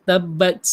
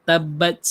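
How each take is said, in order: The two takes are said the same way.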